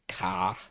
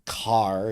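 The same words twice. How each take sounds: First: The r is dropped, leaving a long ah. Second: The r sound after the vowel is pronounced. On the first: "it's car ... it ends up being a ah" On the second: "Instead of the car"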